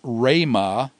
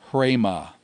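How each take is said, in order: First: The word starts directly with an R sound. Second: The word starts with an H sound before R. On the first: The speaker calls it right. "You don't add an H sound to the beginning of a rho initial word" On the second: The speaker calls it wrong. "not hrema"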